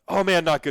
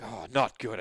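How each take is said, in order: First: It is said in a light, casual tone. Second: It is said in a gloomy, mopey Eeyore tone.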